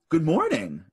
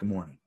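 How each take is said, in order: First: It is said in a very cheerful tone. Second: It is said in a flat, subdued tone. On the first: The person is genuinely happy. The speaker calls it wrong. "really happy" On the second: The person is only getting by. The speaker calls it right. "You're supposed to be like"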